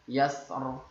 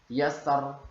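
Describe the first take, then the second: Both takes have the same delivery.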